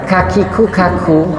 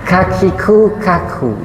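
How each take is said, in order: The two takes are said the same way.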